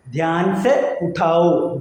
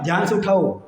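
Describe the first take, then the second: First: "Dhyan സെ ഉഠാവോ" drawn out, word by word; slow, careful "Dhyan സെ ഉഠാവോ" for learners; slow teaching demo. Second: Said in the usual way. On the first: Shown as a demonstration. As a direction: separate each word of "Dhyan സെ ഉഠാവോ" slowly. Teacher spells out phrase slowly.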